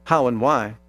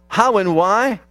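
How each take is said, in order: First: "how and why." low and softer with a falling tune, like the answer; quiet answer. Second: "how and why?" with a rising, questioning tune; asked as a question. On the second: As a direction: pose "how and why?" to the crowd as an open question. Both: Shown as a demonstration. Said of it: "the next word tells us".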